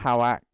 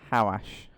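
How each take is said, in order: First: The name ends with a 'ck' sound. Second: The name ends with an 'sh' sound. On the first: The speaker calls it wrong. "Not how act. I've been saying it like that for ages" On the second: The speaker calls it right. "Rolls off the tongue a lot better than howack"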